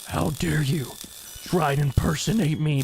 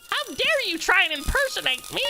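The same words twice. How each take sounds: First: It is said in a plain character voice. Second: It is said in a clowny voice like It's clown.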